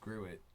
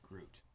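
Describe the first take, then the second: First: It is not said like 'Groot'. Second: It is said like 'Groot', one syllable. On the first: The speaker calls it right. "This this this is Gruit" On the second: The speaker calls it wrong. "not Groot"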